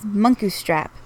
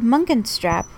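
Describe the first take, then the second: First: The middle syllable has no n sound. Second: The middle syllable has an n sound. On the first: The speaker calls it right. "It is Munkustrap" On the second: The speaker calls it wrong. "you said Munkenstrap, which I'm pretty sure never had an N in it"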